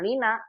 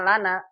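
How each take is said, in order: First: The first vowel is a high 'i'. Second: The first vowel is an open 'a'. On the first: The speaker calls it wrong. "Jangan lina" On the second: The speaker calls it right. "Ini bacanya lana"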